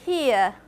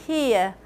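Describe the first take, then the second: The two takes are said the same way.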